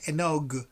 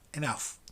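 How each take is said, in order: First: The word does not end with an f sound. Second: The word ends with an f sound. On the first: The speaker calls it wrong. "You never say enog" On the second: The speaker calls it right. "Remember that this word ends with an F"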